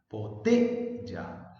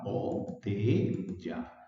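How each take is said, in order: First: "botella" slowly, with a strong punch on "te"; "botella" said as bo-TE-lla, the middle drawn out; stress on middle syllable. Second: "botella" very slowly split as bo-te-lla; low, slow "botella" with gaps between bo, te and lla; broken into syllables. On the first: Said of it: "el acento está en la sílaba T". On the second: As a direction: say "botella" in three separate, drawn-out syllables. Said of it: "botella tiene tres sílabas". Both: Shown as a demonstration.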